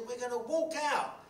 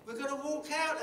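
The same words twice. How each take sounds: First: Higher, louder and slow, rallying the workers; determined declaration. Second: Higher and louder triumphant chant; the cry of the walkout, repeated with joy. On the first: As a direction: announce the walkout with fire. Declaring the walkout. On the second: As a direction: repeat the call like a victory. Repeating the rallying call. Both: Retold or imitated.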